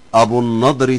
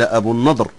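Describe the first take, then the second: First: The name is linked into the following word. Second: The name is said with a pausal ending. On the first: "حالة الوصل" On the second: "حالة الوقف"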